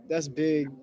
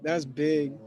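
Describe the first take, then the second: No difference in how they are said.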